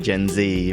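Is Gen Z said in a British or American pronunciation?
American. Gen Z is said in an American pronunciation.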